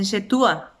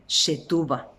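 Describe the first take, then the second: First: "shetua" sin la b, vocales seguidas; consonante omitida. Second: "shetuba" con la b entre u y a; consonante conservada. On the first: Retold or imitated. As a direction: pronuncia "shetua" comiéndote la b final. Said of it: "cuando los chicos dicen shetua". ("shetua" como lo dicen los chicos, sin b) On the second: Shown as a demonstration. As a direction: marca la b de "shetuba". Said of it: "en vez de decir shetuba". ("shetuba" completo, sin comerse la b)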